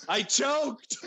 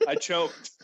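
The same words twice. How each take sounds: First: Higher, wailing repeat; mock-despairing little wail; comic dismay. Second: Said in the usual way. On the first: Real, not acted. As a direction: lament it with rising dismay.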